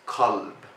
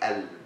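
First: The word begins with a k sound. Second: The word begins with a glottal stop. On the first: "This is the MSA way" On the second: "In Egypt, we say elb with the a sound"

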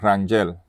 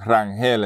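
First: The name is said with a German pronunciation. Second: The name is said with a Puerto Rican Spanish pronunciation. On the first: This is how the name is said in its original language. "Rangel is actually German, and that's how you pronounce it" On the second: This is how the name is said locally in Puerto Rico. "we say Rangel in Puerto Rico"

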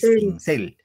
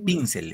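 First: The stress is on the second syllable. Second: The stress is on the first syllable. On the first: The speaker calls it right. "En cel, claro, es pincel" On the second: The speaker calls it wrong. "No así"

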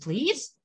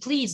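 First: The pitch rises on 'please'. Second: The pitch falls on 'please'. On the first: A softer, lighter request. "ちょっと和らげたかったら、ちょっと上げとけばいいです" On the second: A plain, somewhat heavier request. "下げると、サンドイッチplease でもいいです"

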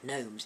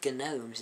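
First: The g at the start is silent. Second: The g at the start is pronounced. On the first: It is the usual way the word is said. "the more popular pronunciation of gnomes" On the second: It follows an unusual written form of the word. "I say gnomes instead of the more popular pronunciation"

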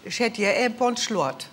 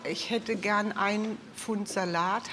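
First: It is said in the local regional dialect. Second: It is said in standard German.

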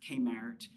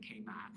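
First: The R after the vowel is pronounced. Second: The R after the vowel is dropped. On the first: This is how younger locals say it. "they're pronouncing their R" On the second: This is how older locals say it. "like an old timer that would say K-Math"

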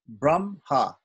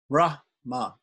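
First: The H sound comes after the M. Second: The H sound comes before the M. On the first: The speaker calls it right. "in actual fact, it's pronounced Brahma" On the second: The speaker calls it wrong. "trying to pronounce the H before the M"

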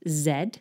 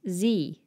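First: The letter name rhymes with 'head'. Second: The letter name rhymes with 'me'. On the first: This is the British way of naming the letter. "In British English, we say Z, like head" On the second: This is the American way of naming the letter. "But in American English, they say Z, like me"

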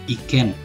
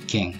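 First: The word ends with a plain n sound. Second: The word ends with an ng sound. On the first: The speaker calls it wrong. "tapi tidak seperti itu cara membacanya" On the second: The speaker calls it right. "berubah menjadi hong atau ikeng"

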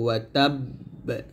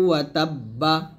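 First: The word stops with an echoing bounce. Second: The word ends with a full final vowel. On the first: "অবশ্যই কলকলা ধরে থামতে হবে" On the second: "যেমন এখানে আছে"

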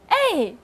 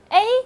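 First: The pitch falls sharply from high to low. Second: The pitch stays high and level. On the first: "四声是哎" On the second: "一声A"

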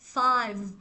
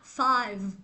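The two takes are said the same way.

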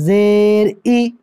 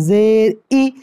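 No difference in how they are said.

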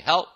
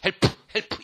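First: The word ends with lips closed, no vowel. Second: The word ends with a released extra vowel. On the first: The speaker calls it right. "help 하고 딱 다물고 있어야지" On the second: The speaker calls it wrong. "이러지 말고"

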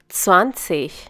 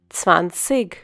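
First: The ending is a soft ich sound. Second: The ending is not a soft ich sound. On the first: "it is pronounced as ich" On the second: "they have a different dialect"

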